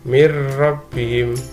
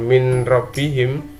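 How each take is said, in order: First: The n merges into a doubled r sound. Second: The n is pronounced separately before the r. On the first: The speaker calls it right. "tapi dibaca mir rabbihim, nun sukun dilebur ke dalam ro" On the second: The speaker calls it wrong. "bukan min rabbihim"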